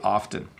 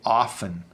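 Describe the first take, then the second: First: The T sound in the middle is pronounced. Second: The T sound in the middle is silent. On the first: The speaker is trying to sound clear and careful. "I am supposed to say the T. ... trying to sound clear and make sure I pronounced everything properly, I would say often" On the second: The speaker is talking quickly and casually. "when we speak quickly, we tend to say often"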